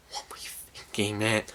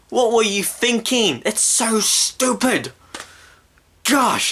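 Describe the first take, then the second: First: Hushed, voiceless reproach; whispered disbelief. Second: High-pitched indignant rant; exasperated outburst. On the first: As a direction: whisper it, as if lost for words. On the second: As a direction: let the exasperation burst out high. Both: Real, not acted. Rants at the film makers.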